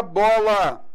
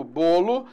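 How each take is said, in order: First: "bola" with an open o, /bɔ/. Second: "bolo" with a closed o, /bo/. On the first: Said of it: "timbre aberto". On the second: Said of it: "timbre fechado". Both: Shown as a demonstration.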